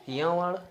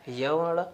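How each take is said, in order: Both takes have the same delivery.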